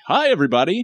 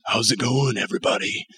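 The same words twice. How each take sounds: First: High, chirpy greeting; light, high voice with no rasp; usual un-raspy voice. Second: Hushed, croaky radio-cool greeting; husky sick-voice hello, fading out; deep, raspy sick voice. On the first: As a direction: pitch it well up, like a squeaky hello. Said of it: "Instead of like". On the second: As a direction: let it drop into a soft, breathy rasp. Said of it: "your voice gets really deep and raspy". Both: Shown as a demonstration.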